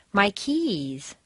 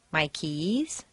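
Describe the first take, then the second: First: "keys" stressed with a falling tune. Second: "keys" stressed, softer, with a rising tune. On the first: Teacher drilling stress, stressing keys. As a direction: land on "keys" and let it fall. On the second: Teacher's second take, stressing keys rising. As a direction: lift "keys" upward, softly. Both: Shown as a demonstration. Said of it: "Use your rubber band for each stressed word".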